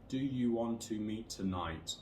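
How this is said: The pitch stays flat throughout. "with no intonation and no stress"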